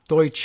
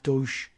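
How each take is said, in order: First: The word ends with a 'cha' sound. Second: The word ends with a 'sh' sound. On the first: The speaker calls it right. "and saying cha" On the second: The speaker calls it wrong. "and not douche"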